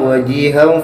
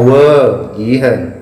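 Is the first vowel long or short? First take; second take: short; long. First: The first vowel is kept short. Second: The first vowel is drawn out long. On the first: The speaker calls it right. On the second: The speaker calls it wrong.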